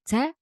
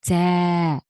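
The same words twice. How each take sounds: First: The vowel is short and clipped. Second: The vowel is drawn out long. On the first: The speaker calls it wrong. "instead of saying" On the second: The speaker calls it right. "we stretch the sound"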